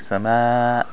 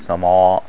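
First: The long vowel sounds light and thin. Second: The long vowel sounds heavy and thick. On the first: The speaker calls it right. "we say sama" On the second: The speaker calls it wrong. "we don't say sama"

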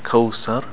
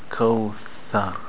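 First: The middle consonant sounds like an s. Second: The middle consonant is a th sound. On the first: The speaker calls it wrong. "Not sir. Not kawthar" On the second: The speaker calls it right. "Put the tongue out and the teeth on the tongue"

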